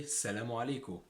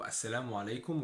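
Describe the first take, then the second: First: السلام عليكم as "salamu aleku"; Egyptian pronunciation. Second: السلام عليكم as "as-salamu alaykum"; Standard Arabic pronunciation. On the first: Teacher shows learners the Egyptian greeting, Egyptian pronunciation. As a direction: say السلام عليكم with a long "e" in "leku". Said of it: "So we say". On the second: Teacher contrasts the formal greeting, Standard Arabic pronunciation. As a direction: say السلام عليكم with "as" first and "ay" in "laykum". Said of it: "Instead of". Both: Shown as a demonstration.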